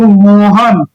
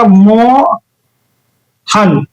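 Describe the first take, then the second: First: Said in the usual way. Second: Mohan very slowly, मो, long pause, हन; broken into syllables. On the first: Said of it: "अगर मैं यहीं पर लिख दूं". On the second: Shown as a demonstration. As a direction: split Mohan with a long gap before हन. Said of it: "कैसे तोड़िएगा". (मोहन तोड़कर, मो... लंबा विराम... हन)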